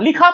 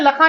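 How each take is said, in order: First: The first vowel is a short i. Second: The first vowel is a short a. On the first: The speaker calls it right. "लाम पर जेर ही पढ़ा" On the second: The speaker calls it wrong. "आपने लुखा या लखा नहीं पढ़ा"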